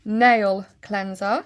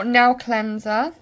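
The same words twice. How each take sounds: First: Slow, "Nail" with a clear "ay" and a full L; careful pronunciation. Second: Bristol accent, "nail" said like "now". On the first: Shown as a demonstration. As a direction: say "Nail cleanser" slowly, sounding the L in "Nail". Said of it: "I always say nail cleanser". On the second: Real, not acted. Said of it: "that's just my accent".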